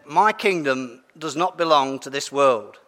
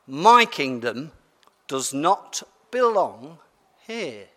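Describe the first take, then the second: First: Said in the usual way. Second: My kingdom does not belong here, very slow and deliberate; solemn slow close to the reading; slow emphatic ending. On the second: Acted. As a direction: land the last line slowly, fading on here. Closing line of the reading.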